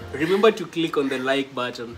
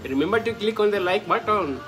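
First: It is said in the speaker's own plain accent. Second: It is said in an imitated Indian accent.

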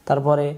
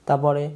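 Both takes have the same delivery.

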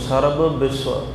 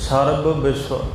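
Both takes have the same delivery.

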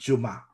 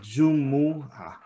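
First: The word is shortened to two syllables. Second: The word has three full syllables. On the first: The speaker calls it wrong. "they just shorten it and they mispronounce it" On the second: The speaker calls it right. "it's Jumu'ah"

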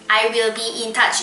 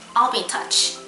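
First: The word will is fully pronounced and stressed. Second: The word will is reduced and passes quickly. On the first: The speaker calls it wrong. "I will be in touch. 이렇게 안 하고" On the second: The speaker calls it right. "이렇게 안 하고 I'll be in touch. 이렇게"

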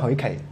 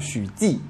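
First: The name is read with Cantonese pronunciation. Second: The name is read with Mandarin pronunciation. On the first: "那广东话叫许凯" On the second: "那普通话是许记"

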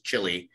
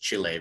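First: The name is said the English way. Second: The name is said the local Spanish way. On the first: The speaker has not lived in that country. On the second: The speaker has lived in that country. "you actually did study in Chile because you pronounce it Chile"

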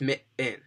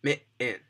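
First: The middle T is said as a glottal catch. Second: The same.

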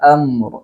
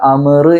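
First: The m runs directly into the r. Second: A vowel is inserted between the m and r. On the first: The speaker calls it right. "അങ്ങനെയാണ് ഓതേണ്ടത്" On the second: The speaker calls it wrong. "അമർ എന്ന് പറയാൻ പാടില്ല"

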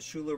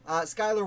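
First: The name begins with a 'shoo' sound. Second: The name begins with a 'sky' sound. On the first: The speaker calls it wrong. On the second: The speaker calls it right.

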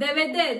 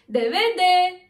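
First: The final 'de' is said without stress. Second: The final 'de' is said with stress. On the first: The speaker calls it right. "daha bak vurgusuz okuyorsun" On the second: The speaker calls it wrong. "deve de demezsin"

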